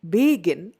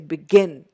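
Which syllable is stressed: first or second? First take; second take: first; second. First: The stress is on the first syllable. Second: The stress is on the second syllable. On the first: The speaker calls it wrong. "I don't say begin" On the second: The speaker calls it right. "it is the second syllable"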